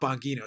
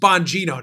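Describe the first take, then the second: First: The g is a hard g. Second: The g sounds like a j. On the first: The speaker calls it wrong. "not Bongino" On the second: The speaker calls it right. "It's Bongino, ... We say our G's like J's"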